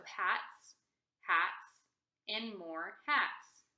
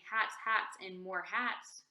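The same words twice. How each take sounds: First: "hats, hats, and more hats" with a clear stop after each comma; pause at commas. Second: "hats, hats, and more hats" run together without pauses at the commas. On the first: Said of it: "whenever we see a comma, we're gonna stop for a second". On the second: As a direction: read "hats, hats, and more hats" straight through, no breaks. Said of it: "So we're not reading hats, hats, and more hats". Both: Shown as a demonstration.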